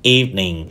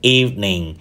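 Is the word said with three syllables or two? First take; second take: two; two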